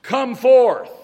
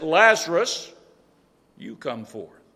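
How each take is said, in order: First: Loud, high, general call of come forth; booming unspecific summons; commanding call. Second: Single out Lazarus by name; name him, then bring the command down; specific command. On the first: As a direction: call out Come forth to every grave at once. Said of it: "when this one said". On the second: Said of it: "he made it very specific". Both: Retold or imitated.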